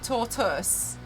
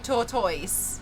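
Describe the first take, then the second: First: The ending is a short 'tus' sound. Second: The ending is a full 'toys' sound. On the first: This is the accepted pronunciation. The speaker calls it wrong. "how it's meant to be" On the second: This matches how Blastoise is said. The speaker calls it right. "to me, it should be"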